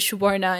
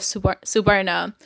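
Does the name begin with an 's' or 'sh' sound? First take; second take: sh; s. First: The name begins with an 'sh' sound. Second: The name begins with a plain 's' sound. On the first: This is the name's real pronunciation. "some of my friends have actually started calling me" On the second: This is the pronunciation most people use. "instead of"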